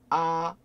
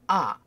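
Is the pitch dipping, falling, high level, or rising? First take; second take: high level; falling. First: The pitch stays high, level and long. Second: The pitch falls sharply from high to low. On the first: "그러면 길게 아, 아, 이게 1성이 되겠죠" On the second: "세게 아"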